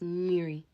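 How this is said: It is said with an r sound.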